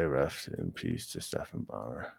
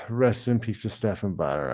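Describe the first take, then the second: First: Much lower and softer, hushed respect; solemn tribute. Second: Said in the usual way. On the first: Real, not acted. Streamer honoring Stephan Bonnar himself, low and hushed. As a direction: drop your voice and mean it.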